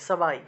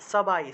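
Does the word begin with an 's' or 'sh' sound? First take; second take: s; s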